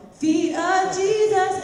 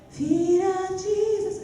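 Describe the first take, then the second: First: Sung, louder, high, firmly held notes; closed-cord singing. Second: Imitated student singing, high and slow; open-corded singing. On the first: Acted. Student after coach's correction, firm loud singing. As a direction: sing it with cords firmly closed. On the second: Worship school student before correction, imitated loose singing. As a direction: sing it with cords not fully closed. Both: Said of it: "Close your vocal cords".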